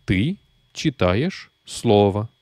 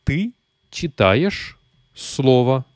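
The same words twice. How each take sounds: First: Said in the usual way. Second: Ты читаешь слово spoken very slowly, word by word; slow model sentence. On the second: Shown as a demonstration. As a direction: read it out slowly for the learner. (lentement, mot par mot) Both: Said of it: "tu lis un mot".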